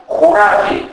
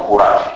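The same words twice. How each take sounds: First: "χουράφι" with u first and a full final i; narrowing only. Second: "χουράφι" as churaf, without final i; dropped final i. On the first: Lecturer showing Naousa speech, "χουράφι" with u and final i kept. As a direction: say "χουράφι", o raised to u, ending kept. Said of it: "Εκεί έχουμε μόνο στένωση". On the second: Lecturer giving the form Naousa avoids, "χουράφι" without final i. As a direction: clip the last vowel off "χουράφι". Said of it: "όχι χουράφι". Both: Shown as a demonstration.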